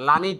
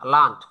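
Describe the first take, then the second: First: The ending is said as an extra syllable. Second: The ending joins the word without a vowel. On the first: The speaker calls it wrong. "এর sound করা যাবে না, লার্নিড না" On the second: The speaker calls it right. "এটাকে পড়তে হবে লার্নড"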